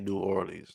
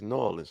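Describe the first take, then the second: First: The city name is said the outsider way. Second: The city name is said the local way. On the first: The speaker sounds like an outsider to the locals. The speaker calls it wrong. "they don't say New Orleans. Like I sound like a square to them" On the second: This is how the locals say their city's name. The speaker calls it right. "Stop saying my goddamn city like that. It's New Orleans"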